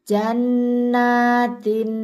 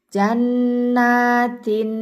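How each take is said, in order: Both takes have the same delivery.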